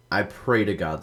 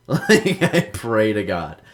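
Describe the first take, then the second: First: Said in the usual way. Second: Louder, higher through a real laugh; laughing emphasis. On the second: Real, not acted. Laughing, louder repeat of remark.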